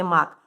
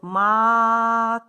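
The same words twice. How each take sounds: First: Said in the usual way. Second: Long "а", then a separate "к"; stretched "мак". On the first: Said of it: "скільки звуків в слові". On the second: Shown as a demonstration. Teacher showing children the last sound, stretched "мак". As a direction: draw out "мак" up to the final "к". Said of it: "і останній звук".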